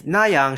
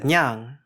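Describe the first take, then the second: First: It is said as two full syllables. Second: It is squeezed into one syllable.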